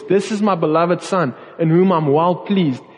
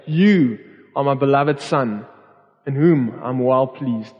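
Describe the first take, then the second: First: God proclaiming to a crowd, lifted and projected. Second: Slower, close and tender, spoken to one person; tender, intimate. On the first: God announces his son to the crowd, proudly projected. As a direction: announce it out to everyone listening. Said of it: "He was proclaiming this out to the audience". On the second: Father lifting up his son, speaking tenderly and slowly. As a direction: say it gently, as if holding your child. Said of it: "it's like him picking up Jesus and saying". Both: Retold or imitated.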